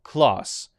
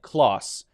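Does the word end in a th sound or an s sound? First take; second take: s sound; s sound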